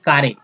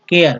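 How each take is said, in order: First: The word is said as 'kaare'. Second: The word is said as 'keyar'. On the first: The speaker calls it wrong. "न कि कारे" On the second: The speaker calls it right.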